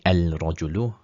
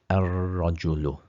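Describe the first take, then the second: First: The l is sounded before a single r. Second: The l is dropped and the r is doubled. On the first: The speaker calls it wrong. "that would be incorrect pronunciation" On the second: The speaker calls it right. "this is a sun letter, so we would actually put a shadda on the ra"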